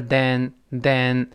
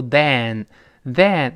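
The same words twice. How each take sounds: First: "then" with a less open e, unlike "than"; correct smaller vowel. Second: "then" drawn out with a wide-open vowel, like "than"; mistaken "than" vowel. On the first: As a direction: say "then" with the mouth less wide, short e. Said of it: "这里口型没有那么大". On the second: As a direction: mispronounce "then" slowly as "than", mouth too wide. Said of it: "不要读then，then". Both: Shown as a demonstration.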